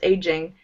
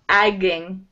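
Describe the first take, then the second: First: The first vowel is a long 'ay' sound. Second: The first vowel is a short 'a' sound. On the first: The speaker calls it right. "it's pronounced the same way, of course" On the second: The speaker calls it wrong. "when I see this, I think it's like agging"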